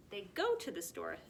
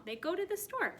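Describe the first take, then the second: First: Said in the usual way. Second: Much higher sing-song reading; bright emphatic repeat. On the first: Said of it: "would be go". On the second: Shown as a demonstration. Teacher repeating the present tense sentence, high and bright. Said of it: "it's happening right now".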